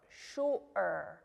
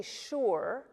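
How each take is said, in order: First: "Sure" broken as shu-er by a throat catch; glottal stop. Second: "sure" run together like the English word; no glottal stop. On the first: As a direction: stop the throat midway through "Sure", shu'-er. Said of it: "make that little stop in your throat". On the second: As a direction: say "sure" in one piece, no throat catch. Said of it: "we don't say sure". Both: Shown as a demonstration.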